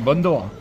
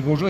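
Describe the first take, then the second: First: "bonjour" said as "bondo", Chinese-accented imitation; "bonjour" mocked as "bondo". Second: Said in the usual way. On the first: Shown as a demonstration. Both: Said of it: "un Chinois qui dit bonjour".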